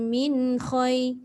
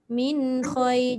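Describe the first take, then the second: First: The nasal n flows smoothly into the next word. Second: The same.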